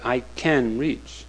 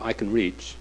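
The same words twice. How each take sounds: First: Its intonation makes it sound like 'can't'. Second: It has the plain intonation of 'can'. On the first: The speaker seems unable to reach. "by his intonation, he meant I can't reach" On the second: The speaker is able to reach. "Instead of I can reach"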